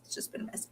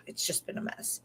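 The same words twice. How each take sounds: First: Barely audible whispered echo; even quieter whispered repeat; fainter whisper. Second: Breathy hushed whisper, much softer; whispered confession to the camera. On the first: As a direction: let it fade to almost nothing. Echoing itself, fainter. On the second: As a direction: drop to a tired whisper. Repeating the mess, hushed. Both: Real, not acted.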